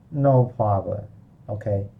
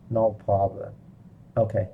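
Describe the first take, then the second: No difference in how they are said.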